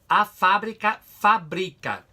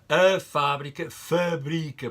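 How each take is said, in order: First: All the a vowels are open and full. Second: The unstressed a vowels are reduced and weak. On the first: "no Brasil, a pessoa diz ... todos estes A's são abertos" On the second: "nós temos ... estes A's têm menos sonoridade"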